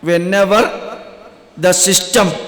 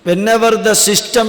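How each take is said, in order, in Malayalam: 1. ഈ വാക്യം സാവധാനത്തിലും ഉറപ്പോടെയും പറഞ്ഞിരിക്കുന്നു. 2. ഈ വാക്യം സാധാരണ വേഗതയിലാണ് പറഞ്ഞിരിക്കുന്നത്.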